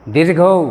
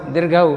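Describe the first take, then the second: First: दीर्घौ said dirgho, ending in a rounded o; दीर्घौ in Bengali style, the last vowel a clear o; teacher models दीर्घौ the Bengali way; Bengali pronunciation. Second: दीर्घौ read dirgh-uh, ending in a short neutral a; दीर्घौ the Hindi way, last vowel short and open. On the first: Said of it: "अभी आप बोलने की कोशिश कीजिए". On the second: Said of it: "यदि इसे हम हिंदी में पढ़ें तो कैसे होगा?". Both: Shown as a demonstration.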